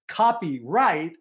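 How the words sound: It is said as two separate words. It means the right to copy. "copyright is two words"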